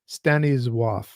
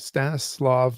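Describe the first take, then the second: First: The name is said the Polish way. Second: The name is said in an anglicized way.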